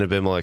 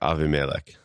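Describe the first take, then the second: First: The second consonant is a b sound. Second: The second consonant is a v sound. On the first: The speaker calls it wrong. "Defaulted to the other way" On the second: The speaker calls it right. "the pronunciation of that name is probably more like Avimelech"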